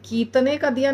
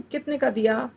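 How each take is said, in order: First: कितने का दिया stretched out oddly, the wrong way; mock wrong version; wrong drawn-out way. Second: कितने का दिया said quickly and naturally; natural quick version. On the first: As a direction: say it in a stretched, unnatural way. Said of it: "नहीं बोलते हैं". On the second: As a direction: say it the everyday way. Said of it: "ऐसे बोलते हैं". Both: Shown as a demonstration.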